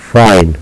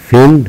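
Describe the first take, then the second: First: فاين with "eye", like "fine"; long i name sound. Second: فين short and high, like "fin". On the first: Teacher repeating the contrast, long i. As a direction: say فاين with a gliding, falling long i. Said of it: "وإنما فاين". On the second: Teacher repeating the contrast, short i pitched high. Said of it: "إذن هنا إي قصيرة". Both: Shown as a demonstration.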